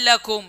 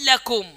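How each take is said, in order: The two takes are said the same way.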